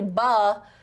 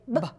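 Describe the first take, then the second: First: The sound is long and drawn out. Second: The sound is very short and clipped. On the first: The speaker calls it wrong. "We don't say buh" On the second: The speaker calls it right. "we have to make it a really short sound"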